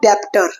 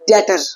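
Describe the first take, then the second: First: A b-like sound is heard before the t. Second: No b sound is heard before the t. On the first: The speaker calls it wrong. "It's not डेप्टर" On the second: The speaker calls it right. "it is debtor"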